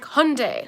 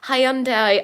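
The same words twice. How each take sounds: First: Hyundai is said in its intended, official pronunciation. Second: Hyundai is said in a casual, everyday pronunciation. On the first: The speaker calls it right. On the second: The speaker calls it wrong.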